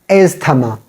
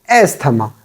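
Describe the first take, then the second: Both takes have the same delivery.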